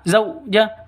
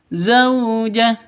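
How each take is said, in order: First: The diphthong is cut off abruptly with a jerk. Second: The diphthong flows softly and smoothly. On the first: The speaker calls it wrong. "jangan disetak ... itu salah" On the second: The speaker calls it right. "Yang betul zaujah ... lentur lemes"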